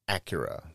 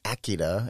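First: The name sounds like the car brand Acura. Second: The name is said the precise Japanese way. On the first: This is the normal American way to say it. The speaker calls it right. "in America, we say Acura, like the car" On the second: The speaker is being pretentious about foreign pronunciation. The speaker calls it wrong. "if you're a fucking asshole"

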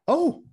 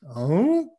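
First: It is said in a surprised way. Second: It is said in a confused way.

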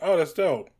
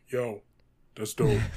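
First: It is said in his normal voice. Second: It is said in a deepened Cannonball voice.

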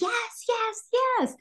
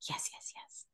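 First: It is screamed loudly. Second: It is whispered quietly.

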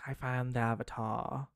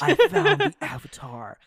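First: It is spoken in a British accent. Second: It is spoken in a neutral accent.

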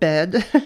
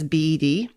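First: It is said as one ordinary word. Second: It is spelled out as three separate letters. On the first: It names the furniture for sleeping. The speaker calls it wrong. "not bed" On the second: It names the disorder by its abbreviation. The speaker calls it right. "I'm going to refer to it as BED"

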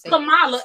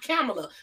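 First: The name does not rhyme with Pamela. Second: The name rhymes with Pamela. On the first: The speaker calls it right. "I'm sorry, it's Kamala" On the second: The speaker calls it wrong. "It's not Kamala. Because they try to make it like Pamela"

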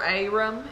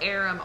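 First: The name is said in a Tennessee accent. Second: The name is said in a standard accent. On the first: "if you're from Tennessee" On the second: "let me pronounce this right"

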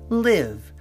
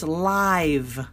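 First: The vowel sounds like the i in sit. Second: The vowel sounds like the i in five. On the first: "It's a short I sound" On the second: "when it's a long I, it's live"

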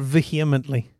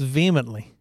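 First: The word is said with four syllables. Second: The word is said with three syllables. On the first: The speaker calls it wrong. "It's definitely not vehemently. There's too many syllables" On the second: The speaker calls it right. "It's vehemently"

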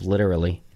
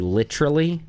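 First: The syllables are casually run together and reduced. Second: Every syllable is clearly and crisply enunciated. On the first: This is how it is usually said. "instead of literally" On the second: This is how the other person says it. "you say literally"

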